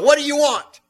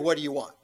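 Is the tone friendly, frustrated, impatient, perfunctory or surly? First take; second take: impatient; perfunctory. First: It sounds impatient, like a parent. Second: It sounds routine and perfunctory.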